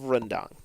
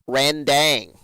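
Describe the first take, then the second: First: The first syllable is said as 'ren'. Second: The first syllable is said as 'ran'. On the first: The speaker calls it right. "his pronunciation of rendang" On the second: The speaker calls it wrong. "He calls it randang"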